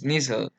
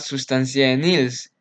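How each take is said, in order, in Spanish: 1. El nombre termina en sonido 'l'. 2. El nombre termina en sonido 's'. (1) "su pronunciación es Nissl" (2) "Mucha gente pronuncia sustancia de Nils y no es así"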